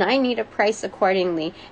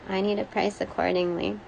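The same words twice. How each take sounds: First: It is said firmly, with strong emphasis. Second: It is said weakly, without conviction. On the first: The speaker calls it right. "full of emphasis" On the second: The speaker calls it wrong. "not like this"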